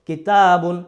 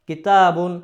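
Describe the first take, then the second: The two takes are said the same way.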